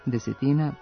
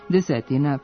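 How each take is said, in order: First: The word has a different accent pattern. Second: The word has its usual accent pattern. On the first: One tenth of something. "koji mogu imati i razlomačko značenje, ali s drugim akcentom" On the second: About ten of something. "Značenje približnosti imaju i imenički brojevi koji se završavaju nastavkom ina"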